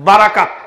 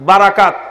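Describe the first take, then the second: Both takes have the same delivery.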